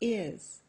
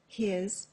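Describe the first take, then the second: First: The h sound is dropped at the start. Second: The h sound is pronounced at the start.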